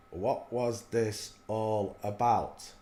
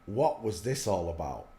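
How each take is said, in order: First: Every word stretched out slowly; slow it right down, as if puzzling it over; slow, drawn-out repeat. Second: Said in the usual way. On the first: Shown as a demonstration. Repeating his question to viewers, slowly.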